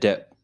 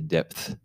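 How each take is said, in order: First: The word ends without a th sound. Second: The word ends with a th sound. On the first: The speaker calls it wrong. "You said depth" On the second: The speaker calls it right. "There's a TH at the end of that word"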